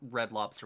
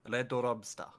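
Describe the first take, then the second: First: The R and L sounds are normal. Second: The R and L sounds are swapped. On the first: This is the usual English pronunciation. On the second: This imitates a Japanese speaker of English.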